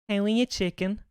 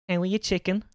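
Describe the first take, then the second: The two takes are said the same way.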